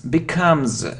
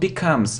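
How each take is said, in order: First: The word ends with a buzzing z sound. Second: The word ends with a hissing s sound. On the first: The speaker calls it right. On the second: The speaker calls it wrong.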